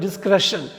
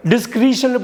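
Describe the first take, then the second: First: "டிஸ்க்ரெஷன்" with a short "e"; correct pronunciation. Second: "டிஸ்க்ரீஷன்" with a long "ee"; wrong pronunciation. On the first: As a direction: say "டிஸ்க்ரெஷன்" as "dis-kre-shun". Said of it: "டிஸ்க்ரீஷன் படிச்சிடக்கூடாது". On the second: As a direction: say "டிஸ்க்ரீஷன்" as "dis-kree-shun". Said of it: "படிச்சிடக்கூடாது". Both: Shown as a demonstration.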